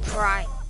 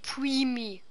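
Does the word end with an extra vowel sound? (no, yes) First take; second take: no; yes. First: The word ends without an extra vowel. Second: The word ends with an extra 'ee' vowel. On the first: The speaker calls it right. "Und das heißt Prime" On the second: The speaker calls it wrong. "Und nicht Primi"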